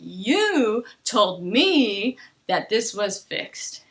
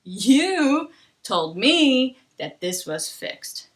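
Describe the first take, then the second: First: It is slow, with wide, stressed intonation. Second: It is slow, with wide, stressed intonation.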